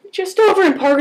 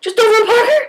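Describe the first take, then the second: First: Said in the usual way. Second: Higher, questioning repeat; imitating his pleasantly surprised reply; surprised echo. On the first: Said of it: "I'm like". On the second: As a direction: echo it back as an interested question. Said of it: "He's like".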